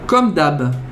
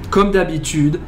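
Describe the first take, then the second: First: The phrase is cut short at the end. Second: The phrase is said in its full form.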